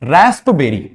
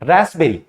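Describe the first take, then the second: First: It is said with a p sound after s. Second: It is said without any p sound. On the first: The speaker calls it wrong. "Wrong pronunciation होता है" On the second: The speaker calls it right. "पी को silent करने के बाद हम इसको क्या पढ़ेंगे"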